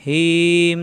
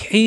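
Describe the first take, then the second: First: Easy glottal h in "হিম", as the error; mistaken light ha. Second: "হি" with a long, tight pharyngeal h; strongly constricted Arabic h in "হি"; pressed throat ha. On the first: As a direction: draw out "হিম" without throat pressure. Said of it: "তাহলে ভুল হয়ে যাবে". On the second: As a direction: bear down in the throat on "হি". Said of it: "চাপ দিয়ে পড়তে হবে". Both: Shown as a demonstration.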